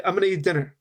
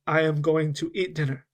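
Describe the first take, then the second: First: "I'm gonna eat dinner" run together quickly as one phrase; casual, words linked, "gonna" reduced to a blur; native linked rhythm. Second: "I am going to eat dinner" with every word fully pronounced; careful, measured version of "I am going to eat dinner"; full unlinked form. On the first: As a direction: say it as to a friend, slurring the words together. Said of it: "spoke it more in a native rhythm". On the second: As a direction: clear separate words, "going to" unreduced. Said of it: "it was the same as". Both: Shown as a demonstration.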